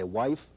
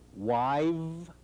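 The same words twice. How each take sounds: First: The word ends in a voiceless f sound. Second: The word ends in a voiced v sound. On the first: This is the singular form. "ese sonido de F final" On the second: This is the stem used for the plural. "se sonoriza"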